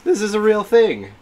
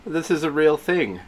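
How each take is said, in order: First: Higher, louder amazed exclamation; thrilled, voice lifted high; excited disbelief. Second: Said in the usual way. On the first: Real, not acted. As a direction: insist on it in giddy amazement. Repeats it with more excitement.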